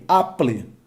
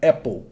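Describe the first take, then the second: First: Apple read as "a-pleh", Portuguese vowels, no English sounds; Brazilian-style Apple. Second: Apple said "EH-pol", open first vowel, English sounds. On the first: Teacher shows the wrong Brazilian reading of Apple. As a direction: say Apple the way a Brazilian reads it from spelling. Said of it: "Eu vou falar o quê?". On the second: Teacher shows students the right English Apple. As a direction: say Apple as a native English speaker would. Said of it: "a expressão dessa palavra seria mais ou menos isso aqui". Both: Shown as a demonstration.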